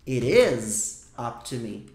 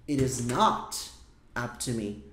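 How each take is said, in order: First: Said in the usual way. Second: Low, slow "it is not up to me" fading out; stress on not. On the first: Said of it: "O que você tinha visto". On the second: Shown as a demonstration. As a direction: lean on "not", slowing down. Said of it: "Se eu quero negar". (ênfase no "not", devagar e baixo)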